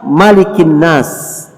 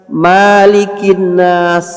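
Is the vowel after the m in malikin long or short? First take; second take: short; long. First: The vowel after the m is short. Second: The vowel after the m is long. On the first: The speaker calls it right. "harus pendek" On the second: The speaker calls it wrong.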